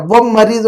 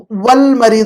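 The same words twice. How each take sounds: First: وہ مریض said "wam-mariidu", L swallowed; lam wrongly dropped. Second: والمریض said "wal-mariidu" with a clear L; lam sounded. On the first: Teacher showing what is not said, وہ مریض as "wam-mariidu". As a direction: double the M with no L in وہ مریض, as the mistake. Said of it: "وہ مریض نہیں کہہ رہے". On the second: Teacher pointing out the right reading, والمریض as "wal-mariidu". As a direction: keep the L before M in والمریض. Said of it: "والمریض کہہ رہے ہیں". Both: Shown as a demonstration.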